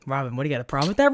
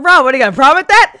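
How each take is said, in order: First: Said in the usual way. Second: Loud, fast, higher mock confrontation; hammed-up loud callout; loud mock challenge.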